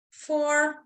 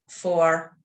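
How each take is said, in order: First: "four" sustained high, as the lungs fill; rising breath count. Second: "four" sustained lower, letting the breath go; settling breath count. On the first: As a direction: count held high on the inhale. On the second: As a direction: count held low on the exhale. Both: Real, not acted.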